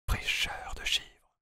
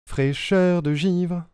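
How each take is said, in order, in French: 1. La phrase est chuchotée. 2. La phrase est prononcée à voix normale.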